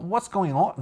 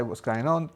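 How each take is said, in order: First: Botched Scouse, pitched up; clumsy high-pitched Scouse attempt; awful Liverpudlian accent. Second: Said in the usual way. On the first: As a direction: try Liverpudlian and miss badly. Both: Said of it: "No, that was awful".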